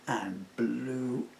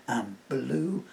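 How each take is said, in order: Both takes have the same delivery.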